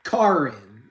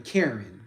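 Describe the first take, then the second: First: "Karen" with an open "ah", KAR-in; first vowel of "Karen" as in "car"; pronunciation shown. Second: "Karen" as CARE-in, American style; first vowel of "Karen" as in "care"; American pronunciation. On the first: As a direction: say "Karen" as CAR-in, not CARE-in. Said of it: "I think it's pronounced". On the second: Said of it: "with an American accent, everybody is saying". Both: Shown as a demonstration.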